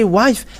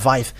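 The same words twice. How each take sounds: First: The word begins with a W sound. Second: The word begins with a V sound. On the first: "But if you say wife, ah, they're uh, taking it as something else" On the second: "they uh, pronounce it uh"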